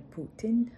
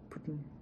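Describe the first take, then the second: First: The t sound is clearly pronounced. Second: The t sound is swallowed. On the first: The speaker calls it wrong. "Це буде не Путін" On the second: The speaker calls it right. "Англійською ми наче й ковтаємо"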